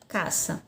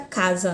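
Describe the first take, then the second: First: The middle consonant is a hissing S sound. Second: The middle consonant is a buzzing Z sound. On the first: This is the Spanish pronunciation. "na língua espanhola a pronúncia fica caça" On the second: This is the Portuguese pronunciation. "na língua portuguesa aqui fica casa"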